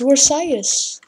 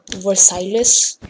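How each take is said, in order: First: The word is pronounced the French way. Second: The word is pronounced in a distorted, non-French way. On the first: The speaker calls it right. "It's Versailles" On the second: The speaker calls it wrong. "How dare you call, like, an important piece of French history, like, Versailles?"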